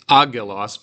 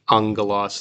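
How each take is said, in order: First: The middle consonant is a plain hard g. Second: The middle consonant is a nasal ng-like g. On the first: The speaker calls it wrong. "I didn't pr- pronounce this agelos" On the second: The speaker calls it right. "a sort of a, a nasal g"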